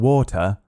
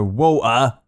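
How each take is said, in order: First: The T in the middle is pronounced. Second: The T in the middle is dropped. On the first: "We don't say water" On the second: "We go water"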